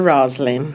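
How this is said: The name is said with English pronunciation. This is the original form of the name. "Na realidade é o nome inglês, seria Roslyn"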